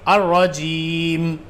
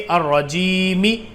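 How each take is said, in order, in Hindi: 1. शब्द एक बिना स्वर वाले व्यंजन पर खत्म होता है। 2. शब्द एक छोटे स्वर पर खत्म होता है। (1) "इसको ऐसे पढ़ेंगे अर रजीम" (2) "जैसे कि अर रजीमी"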